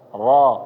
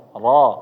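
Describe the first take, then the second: First: The R sound is heavy and full. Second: The R sound is heavy and full.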